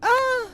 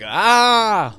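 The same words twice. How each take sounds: First: The scream is high-pitched. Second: The scream is low-pitched.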